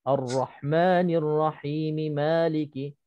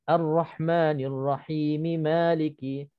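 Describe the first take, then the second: No difference in how they are said.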